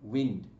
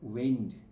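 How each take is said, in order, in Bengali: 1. স্বরধ্বনিটি ছোট, 'win'-এর মতো। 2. স্বরধ্বনিটি লম্বা ও গড়ানো, 'wine'-এর মতো। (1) "যখন উইন্ড মানে ব্রিজ অর্থাৎ বাতাস বোঝাবে" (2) "এ আই উচ্চারণ হচ্ছে"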